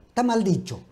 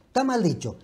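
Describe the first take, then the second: No difference in how they are said.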